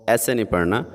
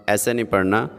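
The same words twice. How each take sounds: No difference in how they are said.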